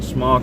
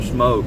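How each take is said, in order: First: The vowel is short, as in lock. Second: The vowel is long, as in poke. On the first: "how do you pronounce it? Is it smock or smoke?" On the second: "how do you pronounce it? Is it smock or smoke?"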